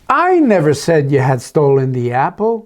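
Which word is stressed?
I. The word "I" carries the stress. Someone else made the accusation. "Oh, maybe it's Esther that did"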